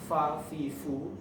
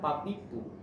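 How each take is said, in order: First: The syllables begin with an f sound. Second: The syllables begin with a p sound. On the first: The speaker calls it right. "orang Sunda itu mau bilang fa" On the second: The speaker calls it wrong. "jadinya papipu"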